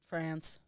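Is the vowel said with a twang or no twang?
no twang. The vowel is said without a nasal twang.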